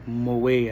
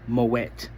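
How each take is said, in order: First: The final T sound is left silent. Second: The final T sound is clearly pronounced. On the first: The speaker calls it wrong. "I know a lot of people say Moet. I know that sounds way more sexier" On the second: The speaker calls it right. "you pronounce the T, so it's Moet"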